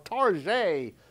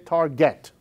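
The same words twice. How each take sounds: First: Target is said with a fancy French-style ending. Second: Target is said with a plain English ending. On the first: The store is presented as upscale. The speaker calls it right. "I have to say it that way" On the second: The store is named in the ordinary way. The speaker calls it wrong. "I cannot say Target"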